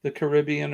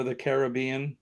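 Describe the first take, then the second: First: "Caribbean" as kuh-RIB-ee-un; stress on second syllable. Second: "Caribbean" as kar-ih-BEE-un; stress on third syllable. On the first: Host showing both ways, first "Caribbean" as kuh-RIB-ee-un. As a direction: put the weight on RIB in "Caribbean". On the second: Host showing both ways, second "Caribbean" as kar-ih-BEE-un. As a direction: put the weight on BEE in "Caribbean". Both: Shown as a demonstration. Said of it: "I use both pronunciations".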